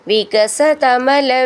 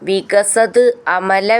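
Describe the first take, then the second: First: The two words are joined into one. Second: The two words are said separately.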